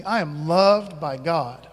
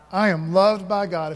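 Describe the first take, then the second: First: Slow call-and-response line. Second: Said in the usual way. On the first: Shown as a demonstration. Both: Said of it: "say it with me".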